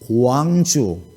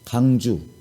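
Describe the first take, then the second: First: The first syllable has a wa diphthong. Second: The first syllable has a plain a vowel. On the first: The speaker calls it right. "광주, 원주 이렇게 하라고 그러면" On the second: The speaker calls it wrong. "경상도 사람들은 이중모음을 잘 못하더만"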